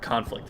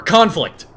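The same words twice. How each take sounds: First: Softer repeat of the word; subdued correction. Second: Loud, higher burst; emphatic self-correction. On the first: Comic repeats his correction to the crowd, subdued and quiet. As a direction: drop the correction to a quiet aside. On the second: Comic hastily corrects the word war, loud emphatic burst. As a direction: blurt the correction out loudly. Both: Pretend.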